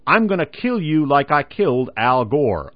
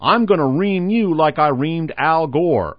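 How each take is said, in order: First: Said in the usual way. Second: Slow, slightly louder Texas drawl, imitating George W; mock Texan bluster, drawn out slow; lightly done Texas drawl threat. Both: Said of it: "in an eerily accurate Texas drawl".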